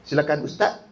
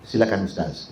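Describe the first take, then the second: First: Silakan ustaz with ustaz said as ustat; presenter on TV saying ustaz as ustat; sloppy TV ustaz. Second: Silakan ustaz with ustaz ending in a clear z. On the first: Retold or imitated. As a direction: copy a careless presenter: ustaz ends in t. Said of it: "dalam T V pun orang cakap". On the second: Shown as a demonstration. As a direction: say ustaz carefully, final z sounded. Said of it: "Kita sebutlah".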